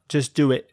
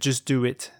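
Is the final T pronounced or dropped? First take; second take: dropped; pronounced. First: The final T is dropped, glottal stop. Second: The final T is clearly pronounced.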